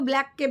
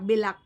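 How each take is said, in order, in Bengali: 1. b আর l একসাথে যুক্ত হয়ে আছে। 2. b আর l-এর মাঝে একটি স্বরধ্বনি ঢোকানো হয়।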